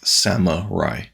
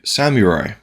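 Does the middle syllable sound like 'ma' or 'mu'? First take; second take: ma; mu. First: The middle syllable sounds like 'ma'. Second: The middle syllable sounds like 'mu'. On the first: The speaker calls it wrong. "as if it was spelled S A M A R A I" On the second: The speaker calls it right. "the correct pronunciation is surely samurai"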